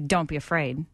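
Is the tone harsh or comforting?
harsh. It is said in a harsh, condemning tone. The listener is being scolded for being afraid. The speaker calls it wrong. "you don't say"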